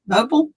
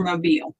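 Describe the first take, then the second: First: "Mobile" rhyming with noble; mobile as MOH-bul. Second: "mobile" ending like "feel"; mobile as moh-BEEL. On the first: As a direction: say "Mobile" as MOH-bul, weak last vowel. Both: Shown as a demonstration. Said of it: "How do you pronounce it?".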